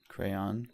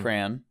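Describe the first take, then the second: First: It is one syllable sounding like crown. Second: It is one syllable rhyming with man. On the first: "sounds like crown" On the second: "with one syllable, rhymes with man"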